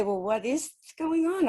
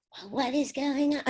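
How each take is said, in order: First: Said in the usual way. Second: Higher, silly mimicking voice. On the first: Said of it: "if I'd say". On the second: Spirit voice echoing her question back, silly voice. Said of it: "in that silly voice".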